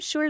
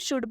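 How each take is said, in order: First: The word is said with an L sound. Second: The word is said without any L sound. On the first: The speaker calls it wrong. "इसे हम शुल्ड नहीं पढ़ेंगे" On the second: The speaker calls it right. "इसे हम शुड पढ़ेंगे"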